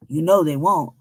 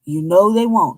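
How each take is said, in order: First: Know leaned on, they left light; stress on know. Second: They hit and falling; stress on they. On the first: Repeating the warning with stress on know. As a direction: lean on the word know. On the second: Repeating the warning with stress on they. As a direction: punch the word they. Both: Shown as a demonstration. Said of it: "repeated with new stress".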